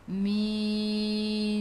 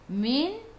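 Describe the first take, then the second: First: The word is drawn out very slowly. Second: The word is said at normal speed.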